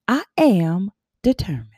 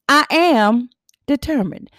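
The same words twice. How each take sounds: First: Said in the usual way. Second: "I am determined" said louder and higher, with weight on "am"; louder emphatic affirmation. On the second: Shown as a demonstration. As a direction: declare "I am determined" with conviction. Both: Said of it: "I'm gonna say it again".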